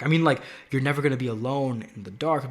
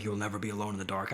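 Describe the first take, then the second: First: Said in the usual way. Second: Low, soft and sinister, "You'll never be alone in the dark." as a creepy threat; softer and lower, making "You'll never be alone in the dark." sound menacing; threatening whisper-like menace on "You'll never be alone in the dark."; malicious. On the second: Shown as a demonstration. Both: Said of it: "not in, like, a malicious way".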